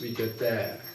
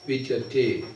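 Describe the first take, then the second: First: The final vowel has a Czech-accented sound. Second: The final vowel has the Sanskrit E sound. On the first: The speaker calls it wrong. "In Czech language you pronounce Vidyate" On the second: The speaker calls it right. "in Sanskrit you have to pronounce the E as E"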